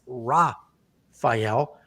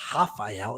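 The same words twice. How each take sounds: First: The name is said with a non-Brazilian pronunciation. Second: The name is said with a Brazilian pronunciation.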